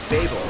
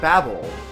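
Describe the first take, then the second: First: It does not sound like the word babble. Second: It sounds like the word babble. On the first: This is how it was said in childhood. "when I was a kid, we always pronounced it Babel" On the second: This is technically the intended pronunciation. "babble like babbling"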